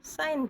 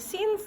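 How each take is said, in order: First: The vowel is pronounced like 'eye'. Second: The vowel is pronounced like 'ee'. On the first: The speaker calls it right. "साइन पढ़ रहे हैं" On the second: The speaker calls it wrong. "सीन्स नहीं पढ़ रहे"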